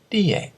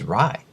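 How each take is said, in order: First: The name starts with a D-like sound. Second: The name starts with an English R sound. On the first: This is the owner's own pronunciation of the name. The speaker calls it right. "She said" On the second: This is how an English speaker reads the spelling. The speaker calls it wrong. "that says rye, like necktie or piece of pie or tell a lie"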